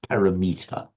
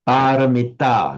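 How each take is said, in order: First: The word ends like English 'meter'. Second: The word ends with a clear 'mita' sound. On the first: The speaker calls it wrong. "awful, no" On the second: The speaker calls it right. "Paramita, not parameter"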